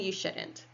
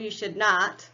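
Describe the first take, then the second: First: Should and not are joined into one short word. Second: Should and not are said as two full words. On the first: It is the easy, everyday way to say it. "That is the easy way to say it" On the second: It sounds a little formal. "but that's a little formal"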